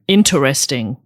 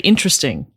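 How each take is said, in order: First: The 'ter' syllable is clearly pronounced. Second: The 'ter' syllable is dropped or reduced. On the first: This is how the other person says it. "So I put the er in" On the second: This is how the speaker's group says it. "We would just say interesting"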